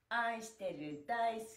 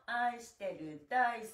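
The two takes are said the same way.

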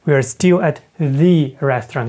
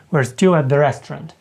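First: Slow, "the" stressed and said as "thee"; emphatic "thee". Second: Said in the usual way. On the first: Shown as a demonstration. Teacher shows the emphatic "thee" before "restaurant". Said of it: "ми так само будемо вживати ось цю форму the". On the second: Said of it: "А коли ми просто читаємо в реченні".

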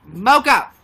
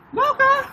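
First: Loud call for Mocha; calling the dog. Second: Much higher, louder call of the dog; high urgent call. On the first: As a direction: call the dog from across the room. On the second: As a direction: shriek the dog's name to get it back. Calling her dog again. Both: Real, not acted.

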